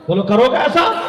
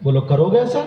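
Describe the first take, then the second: First: Higher, rising rallying question; raised preacher's challenge, climbing at the end; insistent demand. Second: Said in the usual way. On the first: Real, not acted. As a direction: press the crowd loudly for an answer. Insistent repeat to the crowd.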